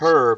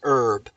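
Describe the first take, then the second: First: The word is said the British way. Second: The word is said the American way.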